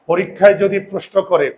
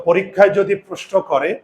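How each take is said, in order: Both takes have the same delivery.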